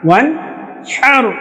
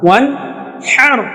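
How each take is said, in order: No difference in how they are said.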